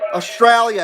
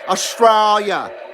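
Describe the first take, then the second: First: It is said in a plain American accent. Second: It is said in an imitated Australian accent. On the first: The speaker calls it wrong. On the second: The speaker calls it right.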